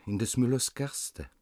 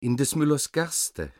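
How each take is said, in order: First: Thin little voices. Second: High, louder gosling chorus; thin little voices. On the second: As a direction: pipe it up like goslings. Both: A narrator's reading. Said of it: "dünnere Stimmchen antworteten".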